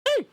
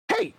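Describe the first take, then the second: First: It is said in a strained character voice. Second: It is said in his natural voice.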